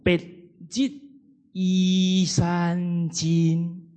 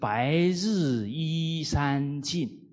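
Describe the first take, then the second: First: It is read in Minnan with short checked syllables. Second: It is read in Beijing Mandarin.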